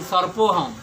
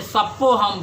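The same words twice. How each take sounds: First: "सर्पो" with the r sounded before p; correct pronunciation. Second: "सप्पो" with the r dropped; childlike lisped pronunciation. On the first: Teacher shows what the child could not say, correct "सर्पो" with r. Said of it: "कैसे शुद्ध बोले कि". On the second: Teacher quotes child Sheshnag to mother, lisped "सप्पो" without r. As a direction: say "सप्पो" with a doubled p, no r. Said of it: "इसलिए उन्होंने सप्पो हम बोला". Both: Shown as a demonstration.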